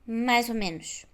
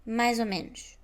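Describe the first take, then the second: First: 'Mais' ends in a z sound. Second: The same.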